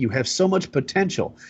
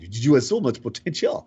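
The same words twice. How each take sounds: First: It is said in the speaker's usual accent. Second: It is said with an imitated French accent.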